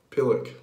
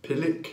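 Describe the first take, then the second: First: British accent, punchy. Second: British accent try, rising. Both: Shown as a demonstration. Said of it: "I might not do it with the accent".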